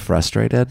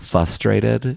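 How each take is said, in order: First: The R after the F is pronounced. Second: The R after the F is left out. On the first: The speaker calls it right. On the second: The speaker calls it wrong.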